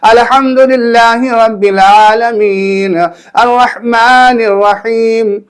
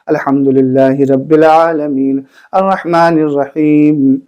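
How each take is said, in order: First: It is recited in a loud, raised voice. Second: It is recited in a soft, quiet voice.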